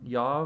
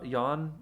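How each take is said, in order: First: The name ends with a V sound. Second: The name ends with an N sound. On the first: The speaker calls it right. "That's what it was" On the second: The speaker calls it wrong. "I said yawn"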